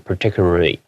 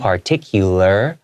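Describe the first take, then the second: First: The L sounds are slurred and hard to hear. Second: The L sounds are clear and fully formed. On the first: The speaker calls it wrong. "if you didn't do that, it'll be really difficult. You might go particularly" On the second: The speaker calls it right. "usually your tongue comes out in between your teeth"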